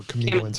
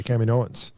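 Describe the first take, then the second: First: Kaminoans with a reduced first syllable, "kuh-MEE-no-ans"; alternative pronunciation. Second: Kaminoans with an open "cam" at the start; first-syllable pronunciation. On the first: Offering co-host another way, Kaminoans as "kuh-MEE-no-ans". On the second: Offering the name to co-host, Kaminoans said with "cam" first. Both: Shown as a demonstration. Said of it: "however you wanna pronounce it".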